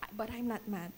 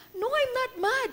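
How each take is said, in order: First: Said in the usual way. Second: High, clipped-sounding protest of "not mad"; defensive denial. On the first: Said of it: "My face looks mad". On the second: Retold or imitated. Mother answering her son Rafa, high defensive denial. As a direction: deny it a bit too sharply. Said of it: "Rafa started telling me".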